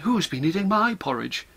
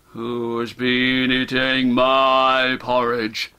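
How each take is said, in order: First: The voice is kind and polite. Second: The voice is deep and gruff. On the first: A gentle mother is speaking. "in a kind, polite voice" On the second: A big, strong father is speaking. "in his deep, gruff, father bear voice"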